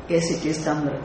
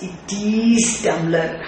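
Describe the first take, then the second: First: Said in the usual way. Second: "is" leaned on, the line slowed down; stress on is. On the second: Shown as a demonstration. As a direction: draw out "is" to insist it is only tumbler. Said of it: "Is what is implied".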